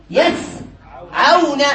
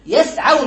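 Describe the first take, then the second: First: "يسعون" slowly split as yas, then awna; syllable by syllable. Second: Said in the usual way. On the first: Shown as a demonstration. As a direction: break "يسعون" after the s, slowly. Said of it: "فنقول". (نطق "يسعون" ببطء مقطعًا: يسـ عونَ) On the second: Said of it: "فنقول يسعون".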